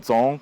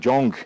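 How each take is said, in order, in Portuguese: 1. Começa com outro som, diferente do j. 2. Começa com som de j em inglês. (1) "o som mais próximo do cantonês seria Thon" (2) "mais popularmente ah, pronunciado como Jong, J O N G"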